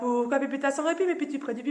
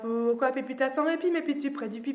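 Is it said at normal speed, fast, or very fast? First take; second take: very fast; fast. First: It is said very fast. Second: It is said a little faster.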